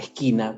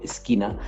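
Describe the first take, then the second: First: The s sound is weakened or altered. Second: The s sound is pronounced fully and clearly. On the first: This is how the speaker used to say it. The speaker calls it wrong. "no podía pronunciar bien la S, por ejemplo, cuando decía esquina" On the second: This is how it should be said. The speaker calls it right. "cuando debería haber decir esquina"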